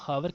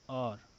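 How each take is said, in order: First: The word starts with an audible h sound. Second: The word starts with a vowel, h silent. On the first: The speaker calls it wrong. "इसको हावर काफ़ी लोग पढ़ते हैं" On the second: The speaker calls it right. "It's an और, it's not हावर... ये एच silent है"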